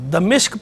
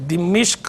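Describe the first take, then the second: First: It has a after D and i after M. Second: It has the vowel i after both D and M. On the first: The speaker calls it wrong. "इसको दमिश्क पढ़ना बहरहाल गलत है" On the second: The speaker calls it right. "दाल के नीचे ज़ेर, मीम के नीचे ज़ेर के साथ भी ठीक है"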